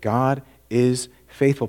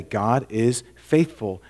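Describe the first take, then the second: First: Faithful stretched, slowly and firmly; slow emphatic repeat. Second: God is faithful, each word slowed and weighty; slow emphatic reading. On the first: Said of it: "It just tells us right there". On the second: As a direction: read it out slowly, leaning on God. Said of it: "Look at verse nine. What does it say?". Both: Shown as a demonstration.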